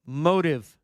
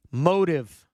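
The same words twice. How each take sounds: The two takes are said the same way.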